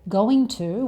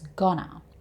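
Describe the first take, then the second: First: It is said as two full words. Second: It is reduced to one short word.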